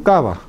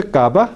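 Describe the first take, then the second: First: "cava" with lips not closing on the v; "cava" with a frictional b, falling; fricative b. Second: "cava" as "kaba" with a hard stop; "cava" with plosive b, rising; wrong plosive b. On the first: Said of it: "no se dice cava, sino". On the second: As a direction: shut the lips mid-word in "cava". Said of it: "no se dice cava". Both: Shown as a demonstration.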